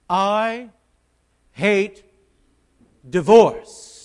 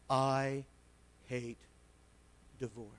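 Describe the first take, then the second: First: The phrase is said noticeably louder. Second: The phrase is said at normal volume.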